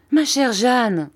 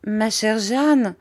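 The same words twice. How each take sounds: First: Startled exclamation. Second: Slow, drawn-out, higher-pitched appeal; hesitant. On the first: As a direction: exclaim it, higher and louder. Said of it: "s'écria ma mère". (exclamation alarmée) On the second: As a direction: address her tentatively, stretching the words. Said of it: "dit en hésitant ma mère". (appel hésitant et traînant) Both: A narrator's reading.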